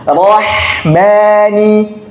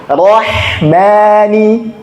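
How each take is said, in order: The two takes are said the same way.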